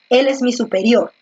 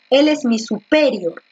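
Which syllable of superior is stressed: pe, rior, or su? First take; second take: rior; pe. First: The stress is on the last syllable, rior. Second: The stress is on the second syllable, pe. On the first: The speaker calls it right. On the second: The speaker calls it wrong.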